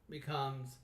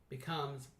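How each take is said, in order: No difference in how they are said.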